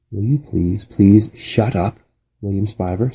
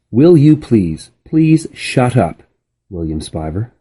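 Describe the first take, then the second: First: Put-on a fed-up girl telling him to stop; lightly voiced annoyance; exasperated plea. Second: Slow, louder title reading; chapter title read. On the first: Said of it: "said Flora". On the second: A narrator's reading. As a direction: announce the chapter title slowly. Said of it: "Chapter sixty-six".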